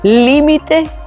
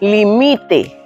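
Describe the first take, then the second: First: The stress is on the first syllable. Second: The stress is on the middle syllable. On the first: It means a boundary or edge. "la sílaba tónica es li" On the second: It means that one limits, subjunctive or command. "la que suena más fuerte es mi"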